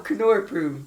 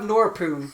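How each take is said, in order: First: The word begins with a K then N. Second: The word begins with a plain N sound. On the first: The speaker calls it right. "why is the K making a sound?" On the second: The speaker calls it wrong. "then you just have Norpoon. And that doesn't sound right"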